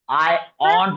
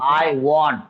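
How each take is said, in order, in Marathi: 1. हा शब्द साध्या स्वराने सुरू होतो. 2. हा शब्द गोलाकार w ध्वनीने सुरू होतो. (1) "आय ऑन्ट नाही हा" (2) "व व पासून चालू होते"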